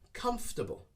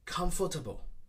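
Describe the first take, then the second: First: The word is shortened with fewer syllables. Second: Every syllable of the word is pronounced. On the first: The speaker calls it right. "we shorten the sounds and we make it shorter" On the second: The speaker calls it wrong. "We try not to pronounce every single syllable"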